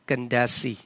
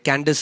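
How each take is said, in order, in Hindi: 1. नाम ee ध्वनि से खत्म होता है। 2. नाम s ध्वनि से खत्म होता है। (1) "कैंडेसी ऐसे इसको प्रोनाउंस किया जाता था" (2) "इंग्लिश में जब आप आज जो ये वर्ड है"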